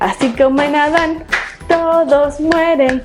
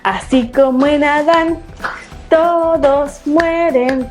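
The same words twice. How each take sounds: First: It is said at a faster pace. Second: It is said at a moderate, slow pace.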